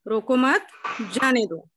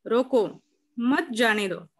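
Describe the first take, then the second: First: रोको मत as one unit, जाने दो set apart; pause after मत. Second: रोको set apart by a clear pause before मत; pause after रोको. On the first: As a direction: join रोको मत, then a short break before जाने दो. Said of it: "रोको मत, उसके बाद अल्प विराम". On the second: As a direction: stop after रोको, then run मत जाने दो together. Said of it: "रोको के बाद अल्प विराम". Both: Shown as a demonstration.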